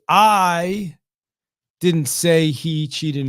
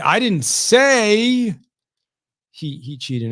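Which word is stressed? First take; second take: I; say. First: The word "I" carries the main stress. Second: The word "say" carries the main stress. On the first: Someone else said it. "So it's like I didn't say it, right? Someone else may say it" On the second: It was implied, not said. "I might have implied it, but I didn't say it"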